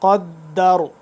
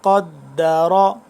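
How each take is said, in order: First: The word ends on the consonant, no vowel. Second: The word ends with a final 'a' vowel. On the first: The reader stops on this word. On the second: The reading continues without stopping.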